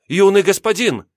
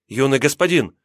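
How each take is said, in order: First: Alarmed cry, much higher, louder; frantic cry. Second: Calling out. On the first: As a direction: cry out in panic for him. Servant cries out again, more frantic. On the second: Servant calls to fallen master. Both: Acted.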